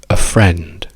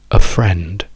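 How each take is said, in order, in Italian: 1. L'articolo è una schwa breve. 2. L'articolo è una schwa breve.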